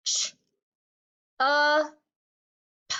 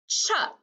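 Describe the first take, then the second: First: "Ch, uh, p" as three isolated phonics sounds; sounded out. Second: "chup" blended into one syllable; blended word. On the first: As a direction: break it up: "Ch", held "uh", short "p". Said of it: "change just the first sound". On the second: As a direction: run the sounds together as "chup". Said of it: "see what happens". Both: Shown as a demonstration.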